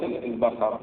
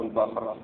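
First: البخر said al-bakhar, with an a after kha; two-vowel variant. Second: البخر said al-bakhr, no vowel after kha; sukun variant. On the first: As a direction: put a short a between kha and ra in البخر. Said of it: "أو البخر". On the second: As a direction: close البخر on khr as one syllable. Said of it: "البخر أو". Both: Shown as a demonstration.

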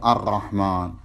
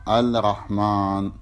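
First: الرحمن said ar-rahman with lam merged; correct assimilated lam. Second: الرحمن said al-rahman, lam wrongly sounded; wrong clear lam. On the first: Teacher giving students the correct ar-rahman. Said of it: "مو الرحمن". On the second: Teacher showing students the mistaken al-rahman. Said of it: "بأن قلت هكذا الرحمن". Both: Shown as a demonstration.

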